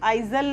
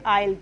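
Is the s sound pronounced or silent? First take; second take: pronounced; silent. First: An s or z sound is pronounced. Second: The s sound is left out entirely. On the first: The speaker calls it wrong. "इसको आइजल नहीं पढ़ेंगे" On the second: The speaker calls it right. "हम इसको पढ़ेंगे आयल"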